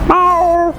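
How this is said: The meow imitates a male tomcat. A tomcat is following her in a romantic mood. "अब बीच में पीछे बिल्ला आ रहा है उसके"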